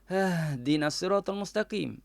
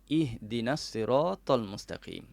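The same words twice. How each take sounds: First: It starts directly with a vowelless h sound. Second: It starts with a short vowel before the h. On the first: The speaker calls it wrong. "kalau tak diletakkan hamzah wasal di hadapannya ... akan jadi macam tu" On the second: The speaker calls it right. "maka diletakkanlah hamzah wasal"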